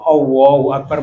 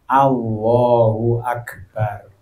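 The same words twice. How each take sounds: First: The first vowel sounds like a rounded 'o'. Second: The first vowel sounds like an open 'a'. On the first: The speaker calls it wrong. "mboten o, mboten mboten" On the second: The speaker calls it right. "Ingkang leres"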